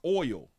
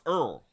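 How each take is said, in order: First: The vowel is an 'oy' glide, like 'boil'. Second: The vowel is an 'er' sound, like 'earl'. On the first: The speaker calls it right. "is pronounced oil" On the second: The speaker calls it wrong. "it's not pronounced Earl"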